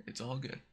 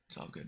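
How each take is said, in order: First: Said in the usual way. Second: "It's all good." said much softer, trailing; soft reassuring repeat of "It's all good."; softer, under the breath. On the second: Shown as a demonstration.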